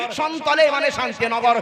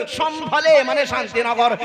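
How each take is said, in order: First: সন্তলে said with a clear s and t, sontole; Santal form. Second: সম্ভলে said with a full sh-bh sound, shondhole; Sambhal form. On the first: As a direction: stress সন্তলে as the second name. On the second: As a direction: stress সম্ভলে as the first name. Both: Shown as a demonstration. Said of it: "সম্বলে, সন্তলে পুরাণের কথা".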